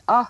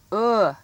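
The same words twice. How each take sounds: First: Uh as in truck; short U sound. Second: Uh as in book; short oo sound. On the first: Teacher checks pupils heard truck's vowel, uh as in "up". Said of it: "uh sound in truck". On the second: Teacher has pupils listen for book's vowel, uh as in "put". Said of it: "the uh in book". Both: Shown as a demonstration.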